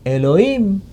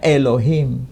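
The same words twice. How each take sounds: First: It is pronounced the Samaritan way. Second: It is pronounced the Masoretic way. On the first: "Taurat versi Samaria tidak dilafalkan Elohim" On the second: "Masora, itu kan melafalkan Elohim. Dilafalkannya Elohim"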